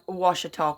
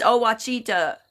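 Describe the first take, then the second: First: Ouachita said WASH-i-taw; rejected pronunciation. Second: Ouachita slowly as oh-watch-EE-ta; insisted pronunciation. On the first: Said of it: "that ain't it". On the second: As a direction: say Ouachita with "chee" and a "ta" ending. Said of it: "It's Ouachita". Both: Shown as a demonstration.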